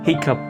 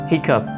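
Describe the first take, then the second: No difference in how they are said.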